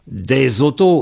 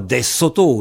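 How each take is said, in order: First: The liaison is a voiced Z sound. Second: The liaison is a voiceless S sound. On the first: The speaker calls it right. "lorsqu'on dit des autos" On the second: The speaker calls it wrong. "et non pas des sotos"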